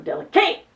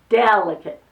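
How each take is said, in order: First: The stress is on the third syllable. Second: The stress is on the first syllable. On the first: The speaker calls it wrong. "or delicate?" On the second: The speaker calls it right. "So it's S on the del"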